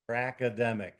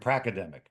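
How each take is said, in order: First: The word is said slowly and deliberately. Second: The word is said at a normal pace.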